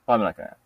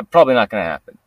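First: Softer, trailing repeat; quiet echo. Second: Said in the usual way. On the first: Real, not acted. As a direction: echo it under your breath. Repeats his own words.

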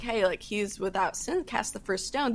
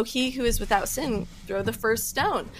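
First: Softer, gentle retelling of Jesus; mild tender mercy in the voice; loving. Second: Said in the usual way. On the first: Retold or imitated. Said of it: "Jesus so lovingly was like". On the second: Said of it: "and says".

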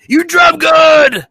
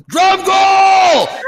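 First: High, loud, drawn-out holler; mock yell. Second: High, drawn-out mock Stallone yell; yelling a name. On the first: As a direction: imitate a movie star yelling, words stretched. Stallone's reply echoing the yell. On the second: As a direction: holler it long and high, imitating a movie hero. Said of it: "He's, like, yelling his name".

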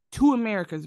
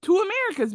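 First: Said in the usual way. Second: Much higher and louder, incredulous; Two Americas, cried out in disbelief; exasperated outburst; exclaimed. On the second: Real, not acted. Repeats phrase for emphasis.

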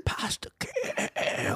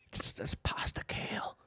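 First: High, laughing, slow; squeaky laugh. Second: Whispered mock misery; whispering. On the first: Pretend. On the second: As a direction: breathe it as a sad secret. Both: Mocking sad vegan meal.

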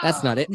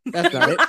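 First: Said in the usual way. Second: Same words pitched up in frustration; higher, fussy retry. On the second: Shown as a demonstration. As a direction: try it again, higher and fussier. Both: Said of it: "Wait, I have a sound effect".

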